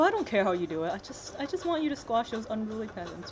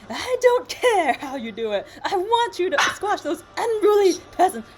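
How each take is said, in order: First: It is said in a very friendly voice. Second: It is said dramatically, like the Earth Queen.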